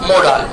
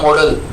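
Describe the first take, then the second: First: The second syllable has a long 'aa' vowel. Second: The second syllable has a short, reduced vowel. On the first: The speaker calls it right. "शुद्ध pronunciation क्या होता है इसका?" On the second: The speaker calls it wrong. "जो गलत बोलते हैं"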